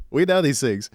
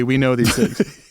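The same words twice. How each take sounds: First: Said in the usual way. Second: Slow and louder, leaning on each word; slow mock-solemn emphasis. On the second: Shown as a demonstration. Co-host jokes about Bigfoot music, slow mock-solemn emphasis. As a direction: say it like a grave confession. Mock-grave repeat after "Unfortunately.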